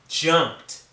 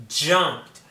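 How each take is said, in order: The two takes are said the same way.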